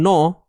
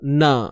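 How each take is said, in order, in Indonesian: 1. Suku kata ini berat, dengan vokal o yang membulat. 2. Suku kata ini ringan, dengan vokal a yang terbuka. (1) "jangan no, ha, sebab sod ni tebal" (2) "huruf nun baris atas na"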